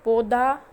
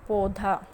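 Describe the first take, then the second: First: पौधा as "पौदा", louder and rising; पौधा as the wrong example, loud; wrong pronunciation. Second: पौधा with breathy ध, falling; पौधा said correctly; correct pronunciation. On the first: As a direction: drop the breath from ध in पौधा. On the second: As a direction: give पौधा its aspirated ध, falling tone. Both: Shown as a demonstration. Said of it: "ये हमारा शुद्ध शब्द है".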